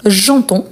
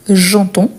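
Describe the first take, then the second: No difference in how they are said.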